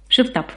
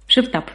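The two takes are said the same way.

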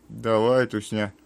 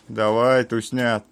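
Both takes have the same delivery.

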